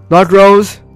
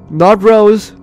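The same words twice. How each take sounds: The two takes are said the same way.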